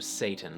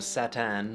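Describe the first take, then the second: First: The first vowel is a long a sound. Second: The first vowel is an a sound. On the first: "which became a" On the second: "became a"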